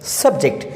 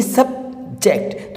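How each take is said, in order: First: Said in the usual way. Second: "subject" in two slow beats, सब-जेक्ट; syllable by syllable. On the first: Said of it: "इसको हम दो बार में". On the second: Shown as a demonstration. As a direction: break "subject" after सब with a clear pause. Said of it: "इसको हम दो बार में बोल रहे हैं". ("सब्जेक्ट" को दो हिस्सों में रुककर बोलें)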